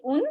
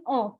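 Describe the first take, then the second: First: Un with a sounded N, like une; mistaken un. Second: Un with no N sounded; nasal French un. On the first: Teacher shows learners' tendency, un with the N sounded. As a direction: pronounce un as it looks, "oon". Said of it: "there is a tendency to say". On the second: Teacher corrects the tendency, un with silent N. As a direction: keep un open at the end. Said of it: "But try saying". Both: Shown as a demonstration.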